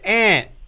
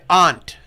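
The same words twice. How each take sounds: First: The word is said in a Philadelphia way. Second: The word is said in a New England way. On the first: "in Philadelphia, where I lived, they said aunt" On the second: "And in New England, they say aunt"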